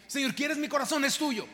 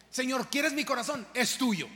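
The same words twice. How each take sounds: First: Corazón stressed and higher; offering the heart, raised. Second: Quieres stressed, louder prayer; offering the heart. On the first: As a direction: lift the prayer more urgently. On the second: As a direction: ask and answer with conviction. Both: Shown as a demonstration. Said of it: "no me lo digas, hazlo".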